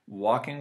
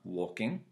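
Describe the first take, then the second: First: The word ends with a shortened 'in' sound. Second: The word ends with a full 'ing' sound.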